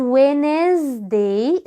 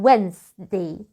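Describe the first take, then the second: First: Wednesday in three beats, 'We-nez-day'; wrong Wednesday. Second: Wednesday in two beats, 'Wenz-day', lower; correct Wednesday. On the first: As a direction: mispronounce Wednesday with a vowel after the N. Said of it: "وبرضو ما اسمهاش". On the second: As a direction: say Wednesday slowly with silent D, no middle vowel. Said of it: "اسمها". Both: Shown as a demonstration.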